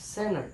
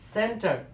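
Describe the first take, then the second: First: The t sound is dropped entirely. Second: The t sound is clearly pronounced. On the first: The speaker calls it right. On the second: The speaker calls it wrong.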